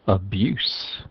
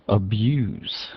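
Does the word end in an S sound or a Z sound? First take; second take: S sound; Z sound. First: The word ends with an S sound. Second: The word ends with a Z sound. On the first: It is used as a noun. "changes to an S" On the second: It is used as a verb. "ends in a Z"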